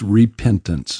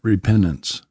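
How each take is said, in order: First: The word is fully enunciated in a standard accent. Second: The word is said in a Southern accent. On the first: The speaker calls it right. "it's repentance" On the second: The speaker calls it wrong. "Is that a Southern? / That's a North Carolina version"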